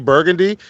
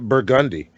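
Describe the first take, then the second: First: It is said the standard, spelled-out way. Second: It is said the local New Orleans way. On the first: This marks the speaker as an outsider. The speaker calls it wrong. "if you say Burgundy, people look at you like you're a fucking idiot" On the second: This is what locals call the street. The speaker calls it right. "we call it Burgundy"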